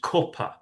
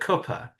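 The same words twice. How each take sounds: First: It is said with a northern English vowel. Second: It is said with a southern English vowel. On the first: "if you go further north, it becomes cuppa" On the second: "both Finn and I kind of pronounce it in the same way"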